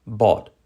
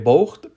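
First: "bought" with open vowel and silent gh; correct pronunciation. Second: "bought" read letter by letter with a guttural gh; as spelt. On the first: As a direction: say "bought" as "bawt". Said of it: "la pronunciación es bought". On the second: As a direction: sound out the gh in "bought". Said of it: "pero la pronunciación es bought". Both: Shown as a demonstration.

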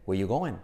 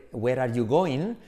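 First: "where you going" said "wei yu goen"; reduced linked form. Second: Slow "where are you going" with every word separate; full, unreduced forms. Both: Shown as a demonstration. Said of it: "se convierte en".

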